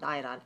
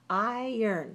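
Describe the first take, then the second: First: It is said 'eye-ron', following the spelling. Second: It is said 'eye-ern', like 'I earn'. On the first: The speaker calls it wrong. "don't say iron" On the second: The speaker calls it right. "Say iron. Think about this. I earn money"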